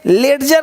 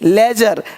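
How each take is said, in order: First: A separate d sound is heard before j. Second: No separate d sound is heard before j. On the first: The speaker calls it wrong. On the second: The speaker calls it right.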